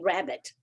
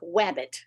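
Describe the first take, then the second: First: The word begins with a clear R sound. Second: The word begins with a W sound. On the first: The speaker calls it right. "I couldn't say rabbit" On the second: The speaker calls it wrong. "I sounded like wabbit"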